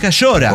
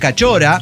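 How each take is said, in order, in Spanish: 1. El sonido del medio es sh. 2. El sonido del medio es ch. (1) "es Cayora" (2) "sin la CH, que para efectos norteños escribo SH"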